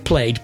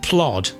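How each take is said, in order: First: The vowel is 'ay', like played. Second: The vowel is an open 'o', like plod. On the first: "Some people would say played, but that would definitely be wrong" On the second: "Up north, where I'm from, my old granny would have said plod"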